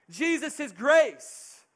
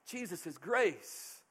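First: "Jesus" punched loud and slow; "Jesus is grace" preached loud with a falling close; emphatic proclamation. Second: "Jesus is grace" said softer and slower; "grace" falling gently, hushed; quiet restatement. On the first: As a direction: proclaim "Jesus is grace" at full force, slowly. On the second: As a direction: let "Jesus is grace" settle, soft and slow. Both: Acted.

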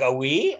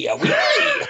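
First: Said in the usual way. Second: "oui" squealed very high and loud; different pronunciation. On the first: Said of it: "So it'd be like". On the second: Retold or imitated. Hotel receptionist in conversation, imitated with a high squealed "oui". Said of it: "she was pronouncing it different".

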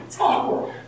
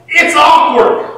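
First: Awkward whispered, breathless and soft. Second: Awkward said loud and slow, falling. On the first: Preacher repeating the point, soft whisper. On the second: Preacher stressing the awkward moment, loud and slow. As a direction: stretch out awkward with a loud fall. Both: Shown as a demonstration.

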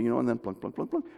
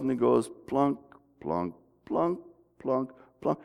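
First: Pluck the notes quickly and lightly; quick plunking. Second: Slowed plunking. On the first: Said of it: "I can speed it up". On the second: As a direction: mimic a slowed-down recording note by note. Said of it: "I can slow it down and stretch it out". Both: Shown as a demonstration.

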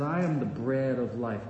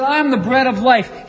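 First: Softer and lower, almost to himself; quiet, awed restatement; hushed, reverent. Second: Louder and higher, every word ringing out; loud preacher's cry of "I am"; booming proclamation. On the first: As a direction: let "I am the bread of life" sink in quietly. The same claim said low and soft. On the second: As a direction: proclaim "I am the bread of life" to the crowd. The claim proclaimed loudly. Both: Acted.

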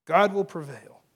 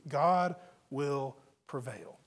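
First: Louder, firm and brisker delivery; forceful declaration. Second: Slow and low, each word set apart; slow, weighty declaration. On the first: Preacher driving the truth home to believers, loud and firm. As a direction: drive it home firmly. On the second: Preacher giving the truth to believers, slow and weighty. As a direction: let each word land separately. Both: Real, not acted.

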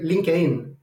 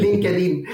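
First: "LinkedIn" with the d dropped, lin-keh-een; Chilean LinkedIn. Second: "LinkedIn" in three syllables, lin-ke-deen, with a laugh; Spanish LinkedIn. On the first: Guest shows how Chile says it with fewer letters, d-less "LinkedIn". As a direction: say "LinkedIn" Chilean-style, swallowing the d. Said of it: "In Chile, you would say". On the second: Guest answers how it is said in Spanish, lin-ke-deen "LinkedIn". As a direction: say "LinkedIn" Spanish-style, keeping the d. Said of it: "In Spanish?". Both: Shown as a demonstration.

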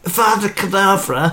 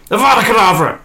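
First: High, laughing questioning curse; laughing retry. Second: High, loud villain curse; shouted curse. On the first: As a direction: try the curse again, giggling. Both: Acted. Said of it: "that should have been more hissy".

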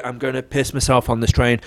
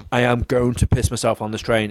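First: Said in the usual way. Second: "I am going to" spelt out word by word; deliberate, insistent "I AM going to"; emphatic repeat. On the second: Retold or imitated. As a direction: stress AM, saying "am going to" in full. Same warning repeated with full words.

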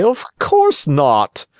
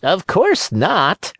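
First: High, slow fox warning; sly fox. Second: High, slow cat echo. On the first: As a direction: warn slyly, drawn out. Fox says it. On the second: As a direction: parrot the fox like a cat. Cat echoes. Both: Acted.

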